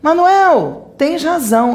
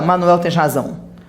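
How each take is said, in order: First: There is a pause after the name. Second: The name runs straight into the phrase. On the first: The speaker calls it right. "a gente faz uma pausa" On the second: The speaker calls it wrong. "A gente não fala"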